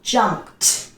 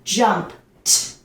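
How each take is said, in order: First: The ending is a short 't' sound. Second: The ending is a short 't' sound.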